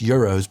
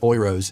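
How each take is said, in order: First: The word is pronounced the English way. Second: The word is pronounced the German way. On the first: "even though it's euros" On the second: "I pronounced it euros"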